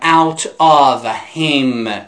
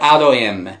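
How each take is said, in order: First: The words are said separately and fully. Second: The words are run together and reduced. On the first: The speaker calls it wrong. "من نمیگم out of him" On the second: The speaker calls it right. "میگم out of him"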